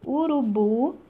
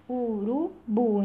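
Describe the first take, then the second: First: Said in the usual way. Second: "Urubu" dito devagar, sílaba por sílaba: u-ru-bu; urubu separado em sílabas. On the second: Shown as a demonstration. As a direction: divide slowly into syllables. ("Urubu" bem pausado, separando cada sílaba) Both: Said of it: "eu consigo separar".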